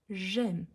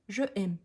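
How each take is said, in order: First: The pronoun merges into the verb as one word. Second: The pronoun is a separate full syllable. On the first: The speaker calls it right. "on prononce comme un seul mot" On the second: The speaker calls it wrong. "elle fait l'élision, mais elle dit je aime. Non"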